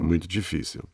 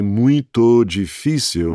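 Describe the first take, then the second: First: The vowel is short and quick. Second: The vowel is drawn out and long. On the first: The speaker calls it right. "That vowel is so short. It's got to be" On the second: The speaker calls it wrong. "If you try to say muito difícil, it just doesn't sound right"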